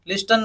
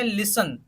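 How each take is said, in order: First: The t sound is pronounced in the middle. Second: The t sound is silent in the middle. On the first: The speaker calls it wrong. "लिस्टन नहीं बोलना" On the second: The speaker calls it right. "टी को silent रखना है"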